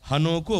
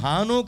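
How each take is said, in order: First: The first vowel is short and unpressed. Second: The first vowel is long and pressed. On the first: "హాక పొల్లు ఉండదు" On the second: "హానోకు అనేది నొక్కి పలుకుతూ ఉంటారు"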